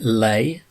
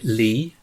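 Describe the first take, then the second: First: The first syllable sounds like 'lay'. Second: The first syllable sounds like 'lee'. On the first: "You pronounce it lay" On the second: "I pronounce it lee"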